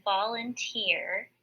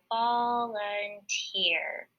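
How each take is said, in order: First: Said in the usual way. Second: Slow, stretched-out volunteer, syllable by syllable; blending syllables slowly. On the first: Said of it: "put my word volunteer in the first". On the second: Shown as a demonstration. Teacher blends the word for class, slowly. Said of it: "when I put those three syllables together".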